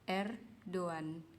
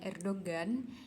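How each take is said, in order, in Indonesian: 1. Tidak ada g; vokal sebelumnya dipanjangkan. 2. Bunyi g keras dilafalkan di tengah. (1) "dibacanya itu Erdogan" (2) "itu sebenarnya salah"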